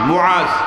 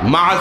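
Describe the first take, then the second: First: The name begins with a 'mu' sound. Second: The name begins with a 'ma' sound. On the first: The speaker calls it right. "এটাই হলো শুদ্ধ উচ্চারণ" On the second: The speaker calls it wrong. "মাআজ না"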